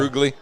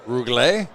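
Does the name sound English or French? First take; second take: English; French. First: The name is said with an English-sounding pronunciation. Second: The name is said with a French-sounding pronunciation. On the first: The speaker calls it wrong. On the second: The speaker calls it right. "something like that"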